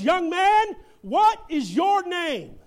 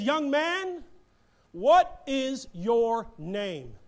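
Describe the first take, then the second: First: It is hollered loudly and angrily. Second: It is said calmly, without shouting.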